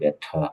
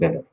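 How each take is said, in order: First: It is said with a British accent. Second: It is said with an American accent.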